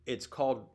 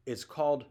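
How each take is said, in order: Both takes have the same delivery.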